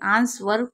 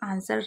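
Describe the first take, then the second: First: A w sound is pronounced in the word. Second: The w is silent in the word. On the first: The speaker calls it wrong. "आंसर गलत है" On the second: The speaker calls it right. "आंसर right है"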